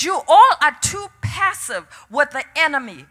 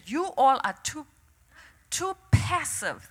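First: Firm, emphatic divine rebuke, lightly voiced; preacher quoting God with conviction; the Lord's rebuke. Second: Soft, halting divine remark, lightly voiced; understated voice of God; the Lord's quiet word. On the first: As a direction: declare the verdict to the whole congregation. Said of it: "He said". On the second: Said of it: "The Lord turned to me and said".

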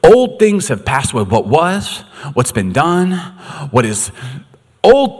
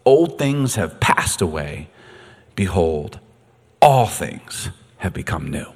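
First: Higher and louder, ringing out; the same verse, now boomed out; proclaimed. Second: Whispered and slow, hushed; hushed scripture whisper. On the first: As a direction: declare it to the room. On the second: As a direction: breathe the verse out low and slow. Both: Shown as a demonstration. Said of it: "God, I love that".

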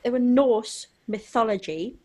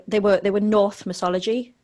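First: "Norse" said correctly, ending in s; corrected to Norse. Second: "North" said instead of Norse, ending in th; wrong word North. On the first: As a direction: say "Norse mythology" with a clear s. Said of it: "There we go". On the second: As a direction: say "North mythology" with a th sound. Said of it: "You said North". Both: Real, not acted.

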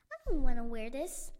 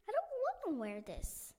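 First: Loud protest. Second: Whiny complaint. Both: Acted. Luna complains about uniform.

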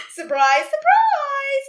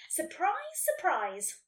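First: Very loud, soaring announcement; yelled. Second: Said in the usual way. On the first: A narrator's reading. Unicorn bursting in on Nelly, yelling. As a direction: yell it, leaping high on the second word. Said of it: "or he yelled".

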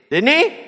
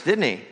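First: Much higher, rising sharply on he; high rising prod. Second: Said in the usual way. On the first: Shown as a demonstration. Preacher presses the church for a reply, high and rising. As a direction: prod the congregation to answer.

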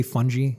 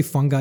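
First: "fungi" with a soft g, ending like jee; soft-g pronunciation. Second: "fungi" with a hard g, like FUN-guy; hard-g pronunciation. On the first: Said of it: "you say fungi". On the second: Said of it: "I say fungi". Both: Shown as a demonstration.

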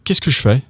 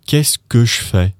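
First: "Qu'est-ce que je fais" run together as "kiss-kush-fay"; higher, quick, "je" reduced to "sh"; said quickly. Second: Measured teaching take of "kess-kush-fay". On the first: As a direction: rattle off "kiss-kush-fay" as one word. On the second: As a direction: separate the syllables, "je" reduced to "sh". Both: Shown as a demonstration. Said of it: "when you say it quickly".

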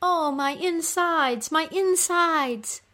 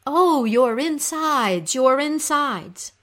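First: High, drawn-out wail of pain; moaning cry. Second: Slow, raised, loud sympathetic lament; echoed moan. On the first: Goddess in labor-like agony in the underworld, moaning cry. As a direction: moan it slowly, high, like labor pains. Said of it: "when she cries out". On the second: Little creatures comforting the suffering queen, echoed moan. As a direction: echo her moan, stretching each word. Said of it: "fly close to her and say". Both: Acted.

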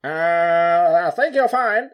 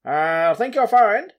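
First: Much higher and louder, in a fuller put-on elder statesman voice; retry "I think you're fine" with the voice pushed further; Nelson Mandela impression. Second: Much higher, louder and slow, with a put-on old statesman voice; Nelson Mandela impression. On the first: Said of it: "I'm gonna do it again better". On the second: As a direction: drawl out "I think you're fine" in an imitated elder voice. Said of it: "That was definitely Nelson Mandela".

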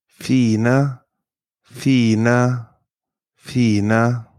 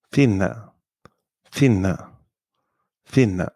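First: "Fine" with a long, drawn-out ee; long vowel. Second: "Finne" with a short, quick i; short vowel. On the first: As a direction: hold the i in "Fine" long before the single n. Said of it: "is usually pronounced long". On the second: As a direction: cut the i in "Finne" short before the nn. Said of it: "short if there are two consonants". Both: Shown as a demonstration.

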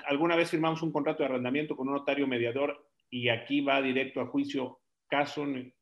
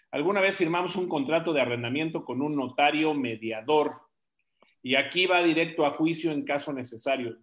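First: Said in the usual way. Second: Careful second reading, clearly separated words; relecture posée. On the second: Real, not acted. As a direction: read it over more deliberately, word by word. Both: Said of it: "a ver, otra vez".

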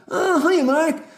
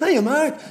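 First: Much higher, sing-song greeting; put-on Susan voice. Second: Much higher, sing-song hello through a laugh; put-on Susan voice again, laughing. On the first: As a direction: chirp a fake-sweet hello to Mark. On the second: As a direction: redo the fake-sweet hello, giggling. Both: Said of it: "why are you speaking like that?".

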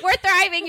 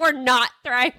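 First: High, bright "We're thriving" as if all is fine; cheery insistence. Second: "We're not thriving" said flat and matter-of-fact; deadpan it, undercutting the cheer; glum correction. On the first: Mom quoting her own upbeat take on vacation, cheery high insistence. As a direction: chirp it like nothing is wrong. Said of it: "as I'm like". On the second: Mom quoting her friend's answer on vacation, glum flat correction. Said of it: "you're like". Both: Retold or imitated.

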